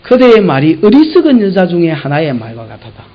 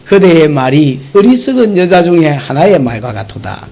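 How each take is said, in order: First: 어리석은 leaned on again, even and firm; stress on 어리석은. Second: 어리석은 leaned on with weight; stress on 어리석은. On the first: Preacher repeating Job's rebuke to the congregation, stressing 어리석은. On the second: Job rebuking his foolish wife, stressing 어리석은. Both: Retold or imitated. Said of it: "욥이 한 말이".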